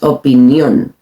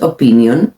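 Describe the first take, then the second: First: The stress falls on the last syllable. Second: The stress falls before the last syllable. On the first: The speaker calls it right. "Again accent" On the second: The speaker calls it wrong. "No es opinión"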